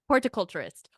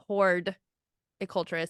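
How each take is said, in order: First: The first syllable sounds like 'hort'. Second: The first syllable sounds like 'horde'. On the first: The speaker calls it right. "let me start again" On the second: The speaker calls it wrong. "I was doing horde culturist"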